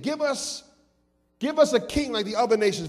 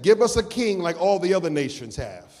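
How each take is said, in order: First: Begging for a king, a touch higher; mock pleading crowd. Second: Said in the usual way. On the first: Shown as a demonstration. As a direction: plead it, don't just ask. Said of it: "they pleaded". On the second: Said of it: "They didn't just ask".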